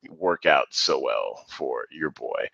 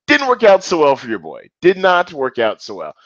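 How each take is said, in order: First: Low, slow and soft, deflated; glum letdown. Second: Higher and louder, mock triumphant; hammed-up catchphrase. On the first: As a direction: sigh it out like a beaten man. Self-mocking about his failed strategy. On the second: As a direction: belt it like a sportscaster joke. Repeats catchphrase with gusto. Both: Real, not acted.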